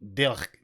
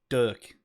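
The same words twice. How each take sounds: First: The name is said with a Belgian Dutch pronunciation. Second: The name is said with an English pronunciation. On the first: "More Belgian Dutch people, it's more Dirk" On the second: "most English speaking people would say Dirk"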